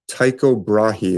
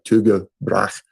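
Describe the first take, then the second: First: The name is said with an English pronunciation. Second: The name is said with a Danish pronunciation. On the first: "is how we generally say it in English" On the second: "it's really pronounced like more like Tycho Brahe in uh, Danish"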